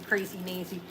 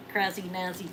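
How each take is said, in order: First: "Nazi" with long a, as NAY-zee; alternate pronunciation. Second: "Nazi" with short a, as NAZ-ee; alternate pronunciation. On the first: Seller retrying a name, "Nazi" said as NAY-zee. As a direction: say "Nazi" to rhyme with crazy, low and soft. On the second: Seller trying out a name, "Nazi" said as NAZ-ee. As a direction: say "Nazi" to rhyme with jazzy, low and soft. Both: Shown as a demonstration. Tries a name two ways.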